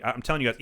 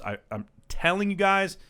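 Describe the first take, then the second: First: Said in the usual way. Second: Slower, higher insistence on guys; earnest plea pitched up; emphatic repeat. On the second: Real, not acted. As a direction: lean in and drive it home.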